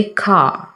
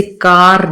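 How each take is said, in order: First: कार with the final r dropped; कार ending on a long open a, no r; correct pronunciation. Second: कार with a rolled r at the end; कार, the final r sounded, as the mistake; wrong pronunciation. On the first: Teacher giving students the right form, r dropped. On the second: Teacher showing students the mistake, final r sounded. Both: Shown as a demonstration. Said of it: "जैसे कार नहीं कहते".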